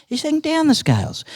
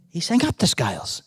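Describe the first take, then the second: First: Sung, start high and slide down on "down the scales"; sung, let the words descend like a scale. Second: Sung, climb in pitch on "up the scales"; sung, let the words rise like a scale. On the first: Uncle tells how the bird sang, voice descending. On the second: Uncle tells how the bird sang, voice climbing. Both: A narrator's reading.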